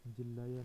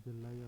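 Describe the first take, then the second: First: जिल्लाया with i and a doubled l, jillaya; जिल्लाया said as jillaya, the incorrect form; wrong form. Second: जल्लाया with a short a and a single l, jalaya; जल्लाया said as jalaya, the correct form. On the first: Teacher naming the wrong form, जिल्लाया as jillaya. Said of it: "नहीं होता है". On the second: Teacher giving the right form, जल्लाया as jalaya. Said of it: "होता है". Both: Shown as a demonstration.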